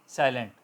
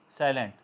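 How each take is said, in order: Both takes have the same delivery.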